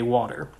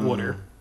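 First: It is said with a general American vowel. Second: It is said with a Philadelphia accent vowel. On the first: "The other Philly thing that I don't do is I say water" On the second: "not water"

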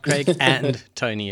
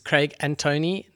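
First: It is said as two separate names. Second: It is said as one full name. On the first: It refers to two different people. The speaker calls it wrong. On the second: It refers to a single person. The speaker calls it right. "It's but one person"

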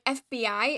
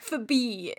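First: Each letter is said separately. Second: It is said as a single word. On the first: "an acronym that's where you say out the letters" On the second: "if you were doing it like OSHA"

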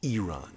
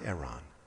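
First: The first vowel is a long E. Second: The first vowel is a short E. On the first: The speaker calls it right. "Specifically said E is long" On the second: The speaker calls it wrong.

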